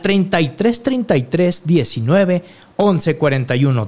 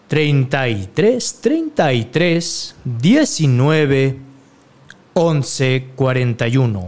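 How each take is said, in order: First: The number is said at normal, faster speed. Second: The number is said more slowly.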